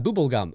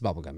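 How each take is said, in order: First: The first vowel is a long 'oo' sound. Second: The first vowel is a short 'uh' sound. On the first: A made-up local pronunciation offered as a joke. The speaker calls it wrong. "That's how we say it here in Canada. No, it's not" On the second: The way people there really say it. The speaker calls it right. "no, it's bubble gum here"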